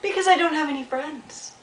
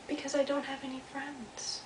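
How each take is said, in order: First: High, plaintive little beaver answer; plaintive call. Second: High, soft, faraway echo; distant echo. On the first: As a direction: call the sad answer out over the water. Beaver calls his answer over pond. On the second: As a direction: repeat it faintly, as from across a pond. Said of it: "and then he heard". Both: Acted.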